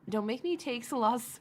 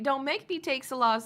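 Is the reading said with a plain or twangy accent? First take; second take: plain; twangy. First: It is read without a twang. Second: It is read with a twang.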